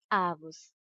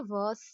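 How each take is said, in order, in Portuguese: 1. A tônica está na primeira sílaba. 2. A tônica está na última sílaba.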